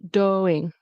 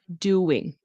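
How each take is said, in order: First: It is said with no w glide between vowels. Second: It is said with a w glide between vowels. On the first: The speaker calls it wrong. "it's not doing" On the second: The speaker calls it right. "with a W"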